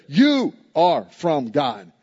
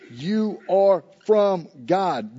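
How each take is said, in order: First: You punched, slow and deliberate; stress on YOU. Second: Said in the usual way. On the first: Shown as a demonstration. Preacher showing the congregation the emphatic you, stress on You. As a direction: lean hard on the word You, unhurried. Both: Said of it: "is emphatic in the Greek".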